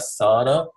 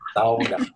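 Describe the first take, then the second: First: The word is said in a non-Finnish way. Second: The word is said in the Finnish way. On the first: The speaker calls it wrong. "if I say a sauna to them, they go, "What?" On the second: The speaker calls it right. "You have to pronounce it sauna"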